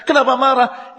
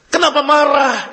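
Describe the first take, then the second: First: Higher, chuckling through the question; amused rhetorical question to the listeners; laughing repeat. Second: Higher and louder, pointed question; loud rhetorical question to the listeners; rhetorical challenge. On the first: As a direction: tease them with a laugh. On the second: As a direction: challenge the congregation. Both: Shown as a demonstration. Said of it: "Itu yang saya katakan".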